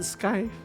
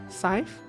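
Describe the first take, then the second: First: It starts with 'sk' and ends in 'v'. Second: It starts with 's' and ends in 'th'. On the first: "I've always pronounced it skive" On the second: "Is that not how you pronounce S C Y T H E?"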